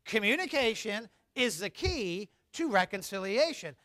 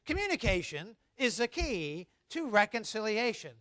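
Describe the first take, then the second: First: Recited again. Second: Recited together. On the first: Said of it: "One more time". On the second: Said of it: "Let's say that together". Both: Shown as a demonstration.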